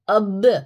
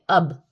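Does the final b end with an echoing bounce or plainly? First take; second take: bounce; plain. First: The final b is released with a jerky echo. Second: The final b is closed plainly without a bounce. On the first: "अब इसको बोल रहे हैं हम जर्क देके" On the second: "simple है"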